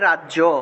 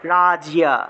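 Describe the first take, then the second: First: The word ends with a 'jo' sound. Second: The word ends with a 'jiya' sound. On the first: This is the Bengali pronunciation. "বাংলায় বললে" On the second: This is the Sanskrit pronunciation. "উচ্চারণ করতে হবে রাজিয়া"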